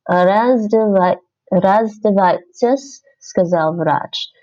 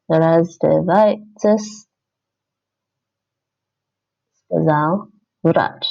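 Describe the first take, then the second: First: Slow, careful reading while typing; slow dictation. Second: Even slower, drawn-out reading; slower dictation. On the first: Learner dictating the sentence to herself, slowly. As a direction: spell it out slowly as you type. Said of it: "typing while reading aloud". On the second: Learner typing the answer, reading very slowly. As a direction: stretch each word as you type it. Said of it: "second take while typing". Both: Shown as a demonstration.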